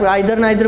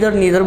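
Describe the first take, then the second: First: The first vowel sounds like 'eye'. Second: The first vowel sounds like 'ee'. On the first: "कुछ students हैं आइदर और नाइदर भी बोलते हैं" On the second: "इधर नीदर बोल रहे हो"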